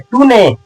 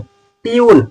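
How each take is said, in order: First: It is said as two syllables, too-nay. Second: It is said as one syllable, tyoon. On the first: The speaker calls it wrong. "बिल्कुल गलत" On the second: The speaker calls it right. "ये लिखा गया है ट्यून"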